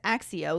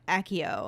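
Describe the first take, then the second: First: The double C is said like 'ks'. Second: The double C is not said like 'ks'. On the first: This is how the speaker reads it. "I always read it as Axio, like accident" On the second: This is how the films say it. "the movies say Accio"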